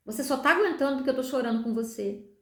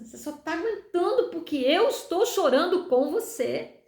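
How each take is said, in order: First: Said in the usual way. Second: "eu estou chorando" slow, higher and weighted; emphatic, moved repeat. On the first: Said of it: "Ele ainda disse pra mim". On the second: Retold or imitated. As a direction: stretch "eu estou chorando com você" in awe. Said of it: "ele tava chorando comigo". ("eu estou chorando com você" dito devagar, com ênfase comovida)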